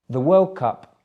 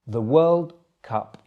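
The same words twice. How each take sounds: First: It is said at normal speed. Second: It is said a little more slowly. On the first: "once at normal speed" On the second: "the second time a little bit slower"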